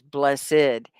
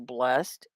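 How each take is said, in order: First: The word is said as two syllables. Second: The word is said as one syllable. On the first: "you can say that both ways" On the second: "the one syllable blessed"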